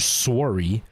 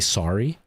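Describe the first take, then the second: First: It has the Canadian pronunciation. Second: It has the American pronunciation. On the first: "They have like a more of a wuh sound" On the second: "They don't really say sorry"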